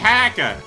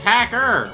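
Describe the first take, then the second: First: The final R sound is soft or dropped. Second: The final R sound is strongly pronounced. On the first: The speaker calls it wrong. "Don't say hacker" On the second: The speaker calls it right. "with a hard R"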